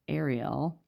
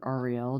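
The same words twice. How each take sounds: First: "Ariel" starting like "air"; "Ariel" with an "eh" first vowel; AIR-ee-el pronunciation. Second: "Ariel" starting like "are"; "Ariel" with an open "ah" first vowel; AR-ee-el pronunciation. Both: Shown as a demonstration. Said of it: "depending on how you pronounce".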